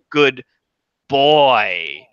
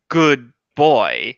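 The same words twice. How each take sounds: First: The stress falls on the word boy. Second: The stress falls on the word good. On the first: The question is about his masculinity. "if you put the emphasis on boy" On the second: The question is about his morality. "put the emphasis here on good"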